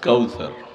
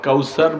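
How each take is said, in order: First: The middle consonant is a soft 'th' sound. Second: The middle consonant is a plain 's' sound. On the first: The speaker calls it right. "সা দিয়া সা" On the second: The speaker calls it wrong. "কাউসার বললে সিন হয়ে যাবে"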